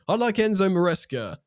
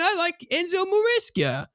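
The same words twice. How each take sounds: First: It is said in a plain, unexaggerated accent. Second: It is said in an exaggerated American accent.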